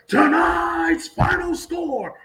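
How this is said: It is said with high, lively energy. The home team won. "when we win ... and do it like that"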